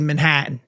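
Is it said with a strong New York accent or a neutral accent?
New York. It is said in an exaggerated New York accent.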